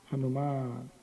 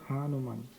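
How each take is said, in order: First: The marked 'a' vowel is long. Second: The marked 'a' vowel is short. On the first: The speaker calls it right. "It's a long A there" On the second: The speaker calls it wrong. "not Hanuman"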